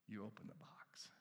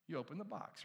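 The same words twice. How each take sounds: First: Hushed, breathy secret whisper. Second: Said in the usual way. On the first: Shown as a demonstration. Preacher to congregation, whispering the answer. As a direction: whisper it like a reveal. Quiet reveal, then repeated aloud.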